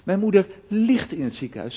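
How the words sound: The stress is on the word ligt. She is bedridden, not a walking patient. "Of als ik de klemtoon leg op ligt"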